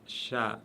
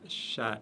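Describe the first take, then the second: The two takes are said the same way.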